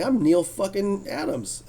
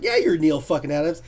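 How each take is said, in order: First: Proud boast. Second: Said in the usual way. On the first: Retold or imitated. Neil voiced proudly, slow.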